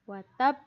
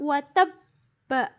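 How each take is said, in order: First: The word ends on a bouncing consonant. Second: The word ends with a short vowel. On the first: The reader stops at this word. "ketika dibaca karena diwakafkan atau berhenti" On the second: The reader continues without stopping. "Tulisannya watabba. Fathah ya"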